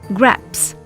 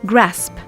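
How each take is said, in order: First: The s sound comes after the p. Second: The s sound comes before the p. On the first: The speaker calls it wrong. "pronounce a word the wrong way round" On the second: The speaker calls it right. "instead of"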